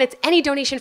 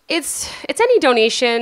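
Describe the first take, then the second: First: It is said firmly and confidently. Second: It is said haltingly and unsurely. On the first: The speaker feels sure, so listeners feel like giving. The speaker calls it right. "When you say it like that with confidence" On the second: The speaker feels insecure, so listeners grow suspicious. The speaker calls it wrong. "if you're feeling insecure"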